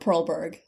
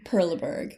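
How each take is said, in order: First: The name is said with an English-sounding pronunciation. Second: The name is said with a French-sounding pronunciation. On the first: The speaker calls it right. "It's probably Perlberg" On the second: The speaker calls it wrong. "I went a little French there"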